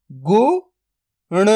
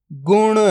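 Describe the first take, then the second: First: "गुण" split into गु, then ण, very slow; drawn-out breakdown of "गुण"; sound by sound. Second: Said in the usual way. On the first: Shown as a demonstration. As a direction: sound out गु ... ण with a long gap. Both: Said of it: "तो मिलके बन जाएगा".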